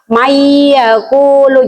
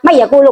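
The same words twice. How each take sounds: First: The n blends into y with a held nasal hum. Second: The n is kept plain without a nasal hum. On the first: The speaker calls it right. "Bunyi nonnya dimasukkan ke dalam iya sambil berdengong sekitar dua harokat" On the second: The speaker calls it wrong.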